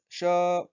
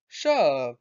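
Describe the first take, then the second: First: The pitch stays flat and level. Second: The pitch falls through the word. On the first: It means lion. "when the tone is just one straight line" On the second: It means thing. "when the tone goes down"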